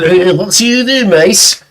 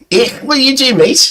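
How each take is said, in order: First: It is said in a more gruff voice. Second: It is said in a less gruff voice.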